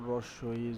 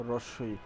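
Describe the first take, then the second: No difference in how they are said.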